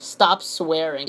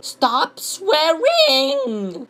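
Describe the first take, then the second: First: Said in the usual way. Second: High, very drawn-out whine; mock whining commenter. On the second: Reading yet another stop swearing comment, drawn-out mock whine. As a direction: stretch both words into a silly whine. Same comment read in mocking voice.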